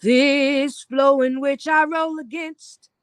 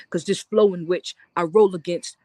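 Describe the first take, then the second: First: Slow sung line. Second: Rhythmic spoken-word line; low spoken word line. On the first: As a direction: sing it slowly. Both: Acted.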